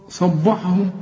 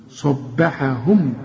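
First: "صبحهم" with b darkened after ص; "صبحهم" thick all through; wrong heavy ba. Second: "صبحهم" slow and lower, thick ص then thin "beha"; slow, corrected "صبحهم"; heavy sad, light ba. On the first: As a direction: mistakenly say "صبحهم" as "sobbohum". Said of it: "تنفع". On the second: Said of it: "ركب فيها صاد في الأول". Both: Shown as a demonstration.

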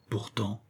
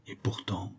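First: Barely audible echo. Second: Fading perplexity. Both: Acted. Perplexed self-talk, repeated.

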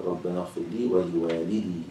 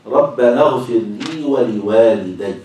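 First: ولوالدي ending in long "-dee"; singular ending. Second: ولوالدي ending in a stressed "-dayy"; doubled final ya. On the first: Teacher repeats the variant reading, ولوالدي with singular long-i ending. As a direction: say ولوالدي as waliwalidee, no doubled y. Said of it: "على الإفراد". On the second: Teacher recites the dual reading, ولوالدي with doubled ya. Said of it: "بالتشديد". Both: Shown as a demonstration.

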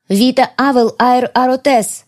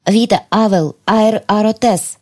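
First: Higher, slow, ringing Вита Авел Аэр Аротес; ancient spell, stronger. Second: Slow chant of Вита Авел Аэр Аротес; ancient spell. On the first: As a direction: call out the spell with power. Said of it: "повторила я". (звонкое заклинание) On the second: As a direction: intone the elven words slowly. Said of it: "древние слова". (медленное заклинание) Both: Acted.

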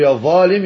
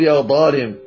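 First: "يا ظالم" with an emphatic voiced th; tongue tip at the teeth for ظ in "يا ظالم"; correct ظ. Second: "يا ظالم" with a heavy d for the ظ; mistaken ض. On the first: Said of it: "بدأ يقول يا ظالم". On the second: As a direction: stop the first sound of "ظالم" as emphatic d. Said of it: "يقول يا ظالم". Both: Shown as a demonstration.

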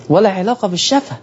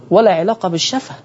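Both takes have the same delivery.

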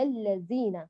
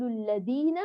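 First: Slow الذين with a whistling Z; dhal turned zay. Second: Tongue-stop D in الذين; dhal turned dal. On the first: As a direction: say الذين with a buzzing Z, "allazina". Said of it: "ولا نقلبها زايا". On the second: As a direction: say الذين with a hard D, "alladina". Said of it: "لا نقلب الذال دالا". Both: Shown as a demonstration.

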